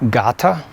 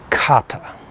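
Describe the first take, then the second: First: The word begins with a voiced G sound. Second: The word begins with a voiceless K sound. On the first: The word is joined to other words. "it'll sound like I'm saying it with a G" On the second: The word stands by itself. "by itself, I would say kata"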